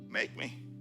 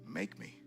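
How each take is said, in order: First: It is said in a defiant, challenging tone. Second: It is said in a soft, pleading tone. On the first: A refusal that dares someone to force it. "My make me is not defiant" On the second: A request to be shaped and changed. "it's an invitation"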